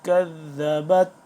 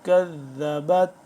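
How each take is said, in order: Both takes have the same delivery.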